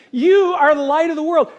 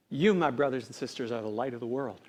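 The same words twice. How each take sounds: First: Loud, high declaration as Jesus; emphatic proclamation. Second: Softly, lower, as Jesus addressing followers; hushed reveal. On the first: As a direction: proclaim it to the whole crowd. Repeats Jesus' words emphatically. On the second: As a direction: reveal it quietly and solemnly. Solemn reveal of Jesus' words. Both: Retold or imitated.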